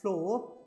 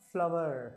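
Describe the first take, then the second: First: The word is said with one syllable, like 'floor'. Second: The word is said with two syllables, like 'flower'. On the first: The speaker calls it wrong. "It's not ಫ್ಲೋರ್" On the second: The speaker calls it right. "ಇದ್ರ ಉಚ್ಚಾರ ಕೂಡ ಫ್ಲವರ್"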